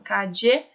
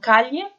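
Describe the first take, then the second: First: The middle consonant sounds like English dj. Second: The middle consonant sounds like a palatal ly. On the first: "como se fosse um som de um D J, tipo um D" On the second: "como se fosse um L H"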